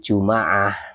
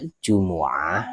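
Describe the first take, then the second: First: It is said in the Bani Tamim form. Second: It is said in the Hijaz dialect form. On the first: "bahasa Bani Tamim" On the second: "sesuai dengan bahasa orang Hijaz"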